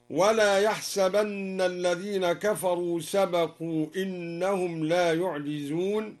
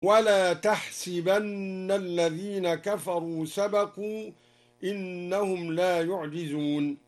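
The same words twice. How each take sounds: First: Said in the usual way. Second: "تحسبن" opens with t and has si, tahsibanna; ta and kasra. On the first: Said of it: "قرأ الدوري بالخطاب وكسر السين". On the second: Shown as a demonstration. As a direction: recite "تحسبن" slowly with i after the sin. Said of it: "قرأ الدوري بالخطاب وكسر السين، والخطاب للرسول". ("تحسبن" بتاء الخطاب وكسر السين)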